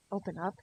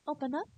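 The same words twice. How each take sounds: First: Said in the usual way. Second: Higher, sweet coaxing "Open up"; "Open up" in a high, rising girl voice. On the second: Shown as a demonstration. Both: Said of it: "Oh, sorry".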